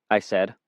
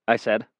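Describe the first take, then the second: Both takes have the same delivery.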